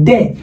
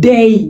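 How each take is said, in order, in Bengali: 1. স্বরধ্বনিটি একটি সাধারণ, স্থির 'e' ধ্বনি। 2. স্বরধ্বনিটি 'e' থেকে 'i'-এর দিকে গড়িয়ে যায়। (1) "আমরা বলি ডে" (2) "এটার উচ্চারণ হবে কি? ডেই।"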